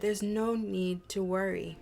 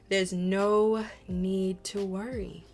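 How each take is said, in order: First: It is said plainly, without extra force. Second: It is said firmly, with strong conviction.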